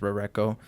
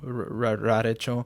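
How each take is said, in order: First: The third syllable is pronounced 'ko'. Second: The third syllable is pronounced 'cho'. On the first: The speaker calls it right. "correct pronunciation is Rareko" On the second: The speaker calls it wrong. "For a time I pronounced it Rarecho"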